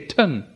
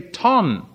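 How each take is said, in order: First: The syllable has a weak, reduced vowel. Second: The syllable has a full, clear vowel. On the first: "They say ton" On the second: "They don't even say ton"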